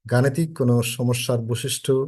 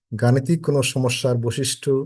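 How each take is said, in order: Both takes have the same delivery.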